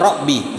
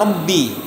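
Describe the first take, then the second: First: The b sound is short and single. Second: The b sound is held and doubled. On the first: The speaker calls it wrong. "Dia baca Robbi misalnya" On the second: The speaker calls it right. "seharusnya Robbi, ba ditasdid"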